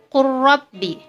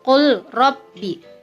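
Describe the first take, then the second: First: The l merges into a doubled r. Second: The l is pronounced separately before the r. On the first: "dibacanya menjadi qurrabbi. Lam masuk kepada ro" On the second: "Contoh bacaannya"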